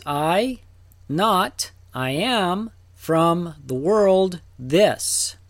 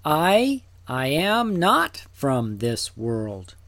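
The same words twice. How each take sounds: First: Each piece set apart, "I", "not", "I am", with pauses; literal word-by-word reading. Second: Deliberate doubled "I", the rest in one slow phrase; smoothed-out emphatic reading. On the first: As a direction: read it out piece by piece, slowing on "from the world". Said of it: "Literally, it says". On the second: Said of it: "Smoothed out". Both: Shown as a demonstration.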